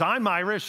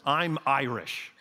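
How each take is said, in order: First: Higher and louder boast; hot-headed Irish declaration. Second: Slow, deliberate declaration; quoting the Irish coworker. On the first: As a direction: announce it like a proud brawler. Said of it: "And he says". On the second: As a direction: state it plainly, like a fixed rule of life. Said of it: "he looks at me one day and he says". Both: Retold or imitated.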